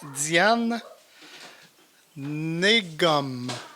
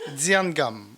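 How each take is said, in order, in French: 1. Le nom de famille commence par un son N. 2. Le nom de famille commence sans aucun son N.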